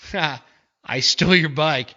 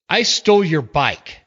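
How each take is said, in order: First: It sounds like a mocking, sarcastic remark. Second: It sounds like a defiant statement.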